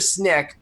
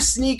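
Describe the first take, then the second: First: The vowel is a short 'i' sound. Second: The vowel is a long 'ee' sound. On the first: Colleagues in London say it this way. The speaker calls it wrong. "our folks in London who you know typically will call it Snick" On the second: This is the intended name. The speaker calls it right. "either Sneak or Snick, but it, it's Sneak"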